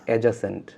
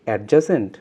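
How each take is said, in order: First: The d sound is silent before the j. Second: The d sound is pronounced before the j. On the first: The speaker calls it right. "ডি এর উচ্চারণ হয় না" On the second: The speaker calls it wrong. "আমি যদি বলি অ্যাডজাসেন্ট, no"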